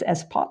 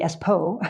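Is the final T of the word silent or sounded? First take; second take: sounded; silent. First: The final T is clearly sounded. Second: The final T is left silent. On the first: The speaker calls it right. "the T is pronounced" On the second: The speaker calls it wrong. "I thought it would be Espo"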